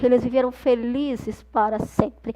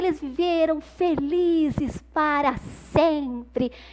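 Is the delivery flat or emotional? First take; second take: flat; emotional. First: It is said flatly, without emotion. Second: It is said with happy, lively emotion. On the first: The speaker calls it wrong. "eu não vou falar" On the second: The speaker calls it right. "eu tenho que dar essa entonação, eu tenho que dar a emoção certa"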